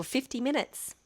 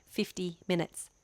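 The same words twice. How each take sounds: First: Said in the usual way. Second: "Fifty minutes" slow, each word set apart; emphatic repeat. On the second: Real, not acted. Vlogger clarifying five zero to viewers, "Fifty minutes" slow and deliberate.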